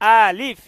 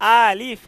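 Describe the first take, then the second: The two takes are said the same way.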